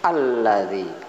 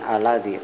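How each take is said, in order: First: The l is doubled and pressed hard. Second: The l is single and light. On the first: The speaker calls it right. "Ada tahzid sehingga dihentakkan bacanya" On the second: The speaker calls it wrong.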